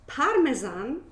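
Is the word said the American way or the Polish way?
Polish. It is said with a Polish pronunciation. This is how people in Poland say it. "I'm from Poland and we say"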